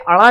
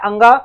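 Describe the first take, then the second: First: It is said with a flapped 'r'-like sound: 'ada'. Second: It is said with a nasal 'ng' sound: 'anga'. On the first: The speaker calls it wrong. "कुछ लोग बोलते हैं अड़ा" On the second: The speaker calls it right. "ये होता है अंगा"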